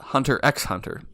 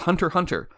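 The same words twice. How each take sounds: First: The X between the words is said aloud. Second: The X between the words is left silent. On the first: The speaker calls it wrong. "not Hunter x Hunter, even though that sounds leagues cooler" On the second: The speaker calls it right. "you're not supposed to pronounce the X"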